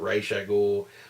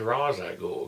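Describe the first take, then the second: First: The first word sounds like 'race'. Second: The first word sounds like 'rahs', as spelled. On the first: This is how it was said on the animated show. "I think everybody says race" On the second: This is how it reads from the comic's spelling. "I always said Ra's al Ghul because that's it's R A S"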